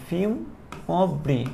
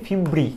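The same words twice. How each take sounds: First: ফিমব্রি very slowly, broken into fim, ob, ri; teacher sounding out ফিমব্রি piece by piece, softly; pronunciation demo. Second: Said in the usual way. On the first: Shown as a demonstration. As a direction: stretch ফিমব্রি out syllable by syllable. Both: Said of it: "এটা উচ্চারণটা হচ্ছে ফিমব্রি".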